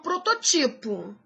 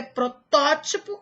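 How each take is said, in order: First: "prototipo" stressed pro-to-TI-po; wrong stress. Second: "protótipo" stressed pro-TÓ-ti-po; correct stress. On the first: Teacher warning against an error, stress on TI. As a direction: move the weight to TI in "prototipo". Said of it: "e não". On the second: Teacher giving the correct form, stress on TÓ. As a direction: punch TÓ in "protótipo". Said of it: "O certo é". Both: Shown as a demonstration.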